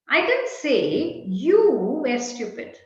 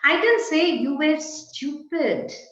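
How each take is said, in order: First: The word you carries the main stress. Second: The word stupid carries the main stress. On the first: It was said about someone else. "Perhaps I said X was stupid" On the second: Something different was said about the person. "I only said you were good"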